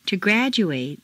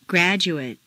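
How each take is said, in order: First: "graduate" ending in long "-oo-ATE"; full A ending. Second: "Graduate" ending in weak "-oo-ut"; reduced ending. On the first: Teacher models verb "graduate" with full final A. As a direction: open out the last A of "graduate". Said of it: "it's a full A sound". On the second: Teacher models "Graduate" with reduced final vowel. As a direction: shrink the last vowel of "Graduate". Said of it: "completely reduced". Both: Shown as a demonstration.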